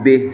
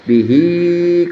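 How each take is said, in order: First: The final vowel is dropped, ending on h. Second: The final vowel is held long. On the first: The recitation stops at this word. "Kalau berhenti mah amarallahu bih" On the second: The recitation continues without stopping. "bihi ketika wasol"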